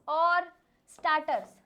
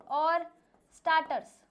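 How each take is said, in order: Both takes have the same delivery.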